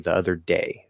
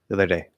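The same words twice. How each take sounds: First: The phrase is said carefully and clearly. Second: The phrase is said very fast and lightly. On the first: "It's a nice clear "d,"" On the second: "If you're speaking really fast"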